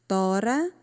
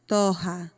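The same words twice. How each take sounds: First: "Tora" with a tongue-tap R, ending on a rise; single tapped R. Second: "torra" with an H-like R, TO-ha; double guttural R. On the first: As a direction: flick the tongue once on the R of "Tora". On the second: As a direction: keep the tongue down on the RR of "torra". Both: Shown as a demonstration. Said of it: "Como fica diferente".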